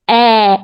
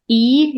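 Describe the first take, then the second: First: The vowel is said with an open mouth. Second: The vowel is said with a closed mouth. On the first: The speaker calls it right. "You make an open vowel sound for this accent" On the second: The speaker calls it wrong. "It's not e"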